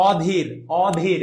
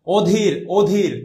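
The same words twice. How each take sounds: First: "অধীর" slowly, opening on a wide open aw; slow non-standard "অধীর" with open ô; wrong pronunciation demo. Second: "অধীর" slowly, opening on a closed, rounded o; slow teacher's model of "অধীর" with o; standard pronunciation demo. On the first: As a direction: say "অধীর" as awdhir, first vowel stretched. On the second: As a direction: say "অধীর" as odhir, drawn out. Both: Shown as a demonstration. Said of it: "এটা না, প্রমিত উচ্চারণ".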